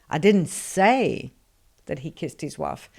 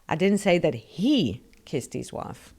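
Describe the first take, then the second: First: The stress falls on the word that. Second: The stress falls on the word he. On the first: Something else was said. "So I said something, but it wasn't that" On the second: Someone else kissed the wife. "So somebody kissed his wife, but it wasn't him"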